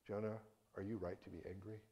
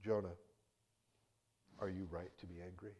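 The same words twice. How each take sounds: First: Soft gentle question. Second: Soft, calm asking; gentle question. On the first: God asks again, same question. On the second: God gently asking Jonah about his anger, softly. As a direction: ask it tenderly, without anger. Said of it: "he offers this gentle question". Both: Acted.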